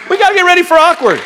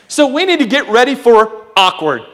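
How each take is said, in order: First: Preacher's shout. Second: Said in the usual way. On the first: Shown as a demonstration. Pastor rousing the congregation, fast high shout.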